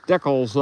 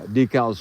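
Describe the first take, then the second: First: It is said the Canadian way. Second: It is said the American way. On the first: "decals up in the up in Canada" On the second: "decals here in the U S"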